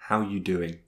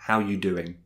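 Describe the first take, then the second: No difference in how they are said.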